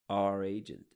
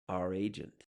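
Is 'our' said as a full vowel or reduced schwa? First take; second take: reduced; reduced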